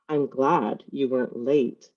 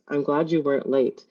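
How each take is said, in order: First: It sounds sarcastic, stressing glad and late. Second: It sounds sincere and relieved, without extra stress. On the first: The person is annoyed about a slightly late arrival. "with both the words glad and late in italics or emphasis, sounds sarcastic or passive aggressive" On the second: The person is truly glad about the arrival. "The first sentence sounds generally relieved, genuinely relieved"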